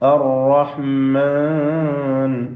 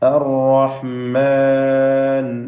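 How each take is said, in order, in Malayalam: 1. നീണ്ട സ്വരം മൂക്കിലൂടെയാണ് ഉച്ചരിക്കുന്നത്. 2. നീണ്ട സ്വരം വ്യക്തമാണ്, മൂക്കൊലി ഇല്ലാതെ. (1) "മാൻ മൂക്ക് കൂട്ടിക്കൊണ്ട് തരിമൂക്കിൽ നിന്നുള്ള ശബ്ദം" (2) "എന്ന് പറയേണ്ടത്"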